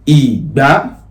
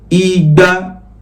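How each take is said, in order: First: The pitch goes from low to high. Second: The pitch stays level on mid. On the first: It means garden egg. "that is domi, that's garden egg" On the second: It means two hundred. "re, re, that's two hundred"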